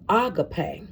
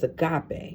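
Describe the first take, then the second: First: It is said the original Greek way. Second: It is said the usual English way. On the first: This is how it is said in the original language. The speaker calls it right. "it's really pronounced uh, agape, and um, in the Greek" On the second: This is how people commonly say it. The speaker calls it wrong. "we pronounce it as agape"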